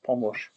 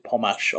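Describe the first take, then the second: First: "pomosh" with a rounded vowel before sh; vowel variant o. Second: "pomash" with an open a in the last syllable; vowel variant a. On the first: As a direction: say "pomosh", ending in rounded -osh. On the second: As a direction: say "pomash", ending in -ash. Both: Shown as a demonstration. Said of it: "pomash or pomosh".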